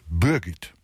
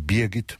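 First: The first vowel sounds like a rounded ö. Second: The first vowel sounds like a clear i. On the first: This is how the local people say it. "Sie drehen es fortwährend in eine Art von Ö" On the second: This is the intended standard name. "wenn sie Birgit meinen"

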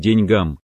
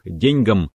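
First: The stress is on the last syllable. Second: The stress is on the first syllable. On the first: This follows the modern norm. The speaker calls it right. "В современном русском языке правильно" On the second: This follows an outdated norm. The speaker calls it wrong. "надо делать ударение на первый слог"

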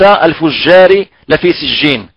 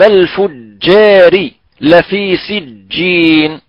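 First: The j is a soft French j from tongue tip. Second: The j is a firm Arabic jim from mid-tongue. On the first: The speaker calls it wrong. "وليس الفجار لفي سجين" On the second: The speaker calls it right. "كلا إن كتاب الفجار لفي سجين"

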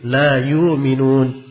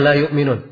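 First: No glottal stop; the first vowel is lengthened. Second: A glottal stop is heard before the m. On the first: "tapi ... itu diringankan" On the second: "Mereka tidak baca"

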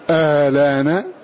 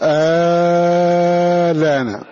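First: The opening hamza is softened between sounds. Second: The opening vowel is drawn out long. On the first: "وإما أن يسهل" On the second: "فإما أن يمده نظرا للأصل"

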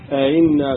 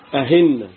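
First: The second hamza is softened without a lengthened vowel. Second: The second hamza is pronounced as an h sound. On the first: "وفي قراءة بالتسهيل" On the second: "من الأخطاء الشائعة النطق بالهمزة المسهلة هاء"

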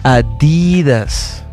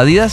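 First: The d sound is strongly emphasized. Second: The d sound is said plainly. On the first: The speaker calls it right. "tiene que haber un énfasis en el D" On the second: The speaker calls it wrong. "así nomás"

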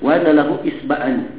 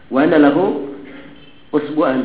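First: The key word begins with an 'i' vowel. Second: The key word begins with an 'u' vowel. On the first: "kalau dibaca lebih fasihnya" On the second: "bisa dibaca usbu'"

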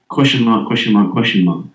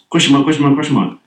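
First: The words are said at an unhurried pace. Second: The words are said quickly, one after another. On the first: "Like that" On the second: "But in rapid succession"

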